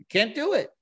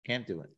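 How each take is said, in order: First: High, firm refusal; emphatic refusal. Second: Much softer, falling repeat. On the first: David refusing to harm the anointed king, high and firm. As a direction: declare it flatly impossible. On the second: David repeating his refusal to himself, much softer. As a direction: let the refusal sink in quietly. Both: Retold or imitated. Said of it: "He says, he says".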